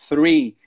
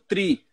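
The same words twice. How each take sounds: First: The word begins with a th sound. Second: The word begins with a t sound. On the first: The speaker calls it right. "botar a língua entre os dentes" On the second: The speaker calls it wrong. "fala como um T, que vai ficar mais o T"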